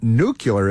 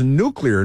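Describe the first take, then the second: First: Nuclear said as NEW-kyuh-ler; nuclear with the kyuh sound in the middle; mispronunciation. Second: Nuclear said as NEW-klee-er; nuclear with clean klee in the middle; correct pronunciation. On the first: Mocking the wrong way, says nuclear as NEW-kyuh-ler. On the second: Correcting his mom, says nuclear as NEW-klee-er. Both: Shown as a demonstration. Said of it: "the word is nuclear, not nuclear".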